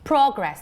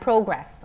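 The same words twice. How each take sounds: First: The first vowel has a British English sound. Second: The first vowel has an American English sound. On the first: "pronounced as O in British English" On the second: "O in American English"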